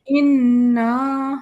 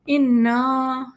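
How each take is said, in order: First: اِنَّا with the final "aa" stretched long and loud; drawn-out madd. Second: اِنَّا with a short plain final "a"; اِنَّا read without the madd elongation. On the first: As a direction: hold the madd on اِنَّا slowly. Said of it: "ہم اسے مد بھی دیں گے". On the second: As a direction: say اِنَّا quickly without stretching the alif. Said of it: "لیکن فی الحال ہم". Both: Shown as a demonstration.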